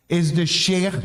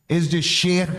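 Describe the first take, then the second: No difference in how they are said.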